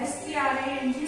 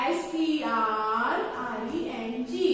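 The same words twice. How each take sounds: First: Quick spelling. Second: Slow spelling. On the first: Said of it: "तो उसको बोलते हैं string". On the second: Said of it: "तो string". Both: Shown as a demonstration.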